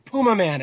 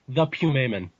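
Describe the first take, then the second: First: "Puma Man" as POO-muh MAN; English pronunciation. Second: "Pumaman" with a PYOO start, PYOO-muh-man; film's odd pronunciation. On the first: Fan corrects himself for English, "Puma Man" said POO-muh MAN. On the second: Fan announces his number one episode, "Pumaman" said PYOO-may-mun. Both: Shown as a demonstration. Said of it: "as they say in English".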